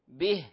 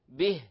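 First: The vowel is a clear short i. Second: The vowel is a clear short i.

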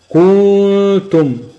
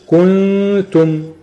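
First: The vowel before the nasal is lengthened. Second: The vowel before the nasal is short. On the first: The speaker calls it wrong. "هو جاب مد وبعد جاب الغن" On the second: The speaker calls it right. "نطقها الصحيح الاول بنقول كنتم"

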